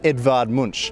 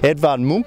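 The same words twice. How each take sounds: First: The name is pronounced the usual English way. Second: The name is pronounced the local Norwegian way.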